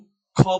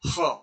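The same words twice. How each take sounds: First: The consonant is a rough kh sound. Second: The consonant is a retroflex sh sound. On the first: The speaker calls it wrong. "इसे वेद पाठी लोग ख बोल देते हैं" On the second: The speaker calls it right. "ख और श के बीच की ध्वनि है"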